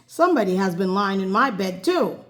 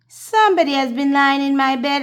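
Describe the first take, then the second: First: It is said in a middle-sized bear voice. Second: It is said in a wee little bear voice.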